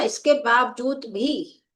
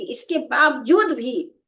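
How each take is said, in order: First: इसके बावजूद भी with the last word भी pressed harder than the rest; stress on भी. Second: इसके बावजूद भी with both बावजूद and भी pressed; stress on two words. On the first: Hindi teacher showing students stress on भी. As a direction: lean on भी at the end of इसके बावजूद भी. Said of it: "भा को हमने बोला". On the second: Hindi teacher showing students the wrong double stress. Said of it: "बावजूद पर भी और भी पर भी दोनों पे बलाघात". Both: Shown as a demonstration.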